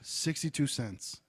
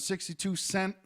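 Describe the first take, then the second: First: The final word ends with an s sound. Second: The final word ends without an s sound. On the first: The speaker calls it right. "Be a fucking adult and say sixty-two cents" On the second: The speaker calls it wrong. "Don't fucking say sixty-two cent"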